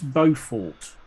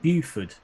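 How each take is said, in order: First: The name is said like 'Beaufort'. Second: The name is said like 'Buford'. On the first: The speaker calls it right. "It's it's Beaufort" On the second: The speaker calls it wrong. "what what he called it Buford"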